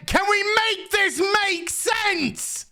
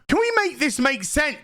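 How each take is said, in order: First: Slow, high exasperated whine; high drawn-out plea. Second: Said in the usual way. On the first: Real, not acted. Reviewer begging the show to make sense, high slow whine. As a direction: stretch it out high like you're begging.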